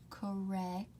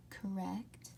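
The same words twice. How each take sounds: The two takes are said the same way.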